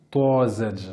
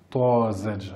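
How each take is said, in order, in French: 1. La première consonne est un t emphatique, lourd. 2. La première consonne est un t emphatique, lourd.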